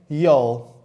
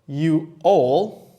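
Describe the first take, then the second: First: It is contracted into one syllable. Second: It is said as two separate words. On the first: "you can say y'all" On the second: "instead of saying you all"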